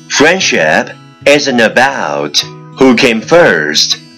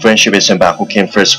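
First: It is spoken at a normal, even pace. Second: It is spoken very fast in one breath. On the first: "let's repeat after me" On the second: "一口气最快语速"

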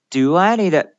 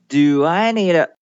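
No difference in how they are said.

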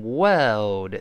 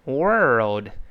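First: The vowel has no r-colouring, British style. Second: The vowel has r-colouring, American style. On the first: "在英式发音中呢，前面OR 呢就是发的声音，它没有卷舌" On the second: "美式发音呢，前面OR 只不过加了一个卷舌音"

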